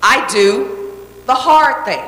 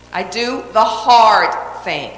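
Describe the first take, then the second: First: I do the hard thing slowed right down, leaning on hard; said slowly, hard given the weight; slow emphatic. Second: I do the hard thing repeated even slower, hard stressed; slow repeated creed, stress on hard. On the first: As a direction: spell it out slowly as a creed. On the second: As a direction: let it sink in with a slow echo. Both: Shown as a demonstration. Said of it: "The next principle I live by".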